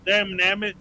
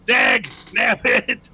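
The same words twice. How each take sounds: First: Said in the usual way. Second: "Dag, damn it" stretched to half speed; drawn-out mock curse. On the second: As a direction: draw out each word in mock exasperation. Repeats the mock curse, escalating.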